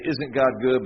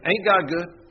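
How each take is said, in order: First: It is said in a neutral accent. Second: It is said in a Southern accent.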